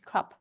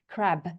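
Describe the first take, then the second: First: The word ends with a voiceless P sound. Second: The word ends with a voiced B sound. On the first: "in Dutch, you hear more of a, I think, a P" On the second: "in English, uh, like B for Bob"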